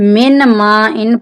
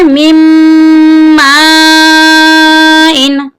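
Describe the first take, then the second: First: The n is pronounced clearly before the m. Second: The n merges into a doubled m sound. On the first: The speaker calls it wrong. "यहाँ पर भी अक्सर लोग गलत पढ़ते हैं" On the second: The speaker calls it right. "इसकी सही अदायगी है"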